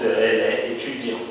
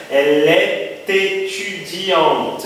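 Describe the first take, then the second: First: "est étudiante" kept apart, "é étudiante" with no t; no liaison. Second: "est étudiante" linked with a clear "t": "es-t-étudiante", said slowly; optional liaison. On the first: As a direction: drop the t between "est" and "étudiante". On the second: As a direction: carefully join "est" to "étudiante" with a sounded t. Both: Shown as a demonstration. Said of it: "vocês podem ouvir a pronúncia, que é facultativa".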